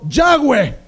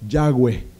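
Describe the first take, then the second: First: The name is said loudly and with force. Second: The name is said quietly and gently. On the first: It is disrespectful to the name. The speaker calls it wrong. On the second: It shows reverence for the name. The speaker calls it right.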